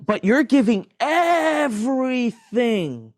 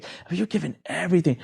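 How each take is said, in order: First: Incredulous. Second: Said in the usual way. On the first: Real, not acted. Incredulous at handing over everything.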